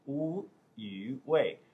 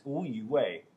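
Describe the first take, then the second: First: "Wu Yu Wei" drawn out very slowly; slow name demonstration. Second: Said in the usual way. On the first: Shown as a demonstration. Telling viewers his Chinese name, "Wu Yu Wei" said slowly and separately. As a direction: spell out "Wu Yu Wei" by sound, syllable by syllable. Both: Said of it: "What is my Chinese name?".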